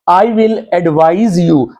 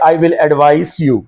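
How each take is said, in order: First: The word advise has a z sound. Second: The word advise has an s sound. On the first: The speaker calls it right. "जे वाले sound जो है verb होगा" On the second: The speaker calls it wrong. "आप ये नहीं कह सकते"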